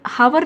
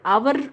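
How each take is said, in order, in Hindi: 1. शब्द की शुरुआत h की आवाज़ से होती है। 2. शब्द स्वर से शुरू होता है, इसमें h नहीं है। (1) "हावर नहीं बोलते" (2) "हम क्या कहते हैं, आवर"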